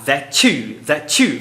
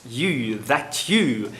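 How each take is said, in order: First: That you blended into a chu sound; palatalized. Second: That you with a clean T and separate you; softer, clean unpalatalized that you; careful. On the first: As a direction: join that you so the T softens into ch. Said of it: "fazendo a palatalização". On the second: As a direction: say that you plainly, no blending. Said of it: "ela fala certinho". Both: Shown as a demonstration.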